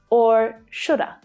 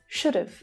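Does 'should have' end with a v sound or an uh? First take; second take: uh; v sound. First: It ends with a short uh, no v. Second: It ends with a short v sound. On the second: "Should have becomes should have"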